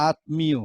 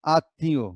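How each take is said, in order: First: আত্মীয় said as written, with the m sounded; spelling pronunciation. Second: আত্মীয় with a doubled t and no m; spoken pronunciation. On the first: Teacher shows students the written form, আত্মীয় with audible m. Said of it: "লিখছি কি". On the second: Teacher shows how we really say it, আত্মীয় with silent m. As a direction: say আত্মীয় as aat-ti-yo. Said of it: "কিন্তু আমরা বলছি কি". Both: Shown as a demonstration.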